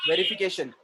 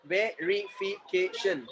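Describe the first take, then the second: First: Said in the usual way. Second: "verification" slowly split into separate syllables. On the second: Shown as a demonstration. Teacher showing the class how "verification" divides, syllable by syllable. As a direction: say "verification" in slow, distinct beats. Word said whole, then in syllables.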